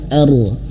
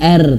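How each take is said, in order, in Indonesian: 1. Bunyi r tebal dan berat. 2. Bunyi r tipis dan ringan. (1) "ro-nya tebal" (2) "jangan R"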